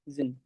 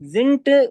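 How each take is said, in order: First: The word ends with a soft d sound. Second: The word ends with a hard t sound. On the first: The speaker calls it right. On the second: The speaker calls it wrong.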